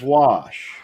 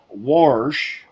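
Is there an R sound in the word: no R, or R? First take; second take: no R; R. First: The word is said without an R sound. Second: The word is said with an R sound. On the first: The speaker calls it right. "it was wash. There is no R in wash" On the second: The speaker calls it wrong. "it wasn't wa- wash"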